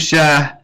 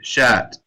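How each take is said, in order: First: The word ends with a soft h sound. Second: The word ends with a clear t sound. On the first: The speaker calls it wrong. "You can say shah, but it just doesn't sound right" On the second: The speaker calls it right. "they usually say shat"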